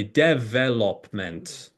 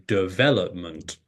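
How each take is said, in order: First: Development stressed on the first syllable, DEVelopment; development with the stress on dev; wrong stress. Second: Development stressed on the second syllable, deVELopment; development with the stress on vel; correct stress. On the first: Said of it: "you just sort of guess". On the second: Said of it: "stress syllable comes on the second syllable". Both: Shown as a demonstration.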